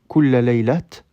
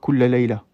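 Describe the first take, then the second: First: The last word ends with a t sound. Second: The last word ends on a plain vowel. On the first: The speaker calls it wrong. "on ne dira pas kulla laylat" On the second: The speaker calls it right. "sans le son ha"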